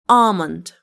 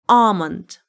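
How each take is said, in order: Both takes have the same delivery.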